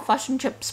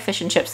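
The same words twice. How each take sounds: First: It is said in an exaggerated mocking Kiwi accent. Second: It is said in her natural Kiwi accent.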